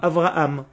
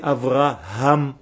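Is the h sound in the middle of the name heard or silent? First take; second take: silent; heard. First: The middle h sound is dropped. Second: The middle h sound is clearly pronounced. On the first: The speaker calls it wrong. "qui prononcent généralement le He comme un Aleph, Avraham. Ce n'est pas Avraham" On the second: The speaker calls it right. "c'est Avraham"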